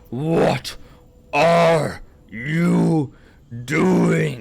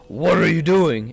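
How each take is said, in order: First: Each word is said slowly and separately. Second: It is said quickly and smoothly.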